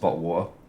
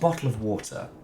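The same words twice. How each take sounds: First: The phrase is pronounced casually, by habit. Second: The phrase is pronounced carefully and precisely. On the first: The speaker calls it wrong. "when I'm sick or just saying things on reflex" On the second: The speaker calls it right. "If I think about it, I can say it correctly"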